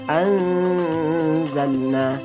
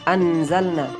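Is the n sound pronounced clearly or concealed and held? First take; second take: concealed; clear. First: The n sound is concealed and held longer. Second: The n sound is pronounced clearly and briefly. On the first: The speaker calls it right. "yang benar itu adalah anzalna, ditekan dua harokat" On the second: The speaker calls it wrong. "ikhfa itu dibaca dengan jelas. Mereka membacanya"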